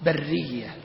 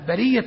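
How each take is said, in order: First: The r sound is held long and doubled. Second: The r sound is short and single. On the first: Born in the wilderness. The speaker calls it wrong. "وبعض الطلاب ينطقها برية، لا، برية يعني مولودة بالبر" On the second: Free of any claim. The speaker calls it right. "برية يعني كأنه يقول أنت برية من حقوقي"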